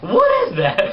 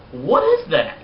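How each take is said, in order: First: Squeaky high crack imitating the slip; mock voice crack. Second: A real crack in the voice mid-question. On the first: Vlogger jokingly repeats his own cracked voice, squeaking high. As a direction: redo the crack on purpose, way up high. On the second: Real, not acted. Vlogger's voice cracks by accident as he asks. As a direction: voice breaks on this question. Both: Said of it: "My voice just cracked".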